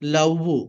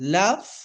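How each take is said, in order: First: The word ends with an extra 'u' vowel. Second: The word ends on a held 'v' consonant. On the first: The speaker calls it wrong. "మన వాళ్ళు ఊలా చెప్తారు" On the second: The speaker calls it right.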